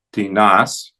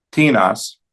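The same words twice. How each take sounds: First: "tinas" as ti-NAS, rising; stress on last syllable. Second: "tinas" as TI-nas, falling; stress on first syllable. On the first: Teacher showing the accented ending, ti-NAS stressed last. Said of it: "en la última sílaba". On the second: Teacher reciting interrogative forms, TI-nas stressed up front. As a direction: hit the TI of "tinas", let nas fall. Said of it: "la primera sílaba". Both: Shown as a demonstration.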